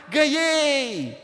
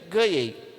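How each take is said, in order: First: It is said as a joyful exclamation. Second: It is said as a doubtful question. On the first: It shows surprise or joy. "demonstrar uma surpresa, uma alegria" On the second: It expresses doubt. "É uma pergunta, uma dúvida"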